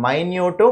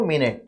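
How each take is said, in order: First: Minute said slowly as "my-nyoot". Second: Minute said slowly as "min-it". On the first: Teacher repeating the example, minute pronounced "my-nyoot". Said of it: "ఒకదాన్నేమో మైన్యూట్ అంటే". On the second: Teacher repeating the example, minute pronounced "min-it". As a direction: say minute as MIN-it, the time word. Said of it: "ఒకదాన్నేమో మినిట్ అంటాం". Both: Shown as a demonstration.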